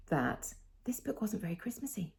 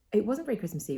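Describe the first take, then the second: First: A breathy confiding whisper, no voice. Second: Said in the usual way. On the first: Real, not acted. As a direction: let it out as a secret aside. Confides opinion in aside.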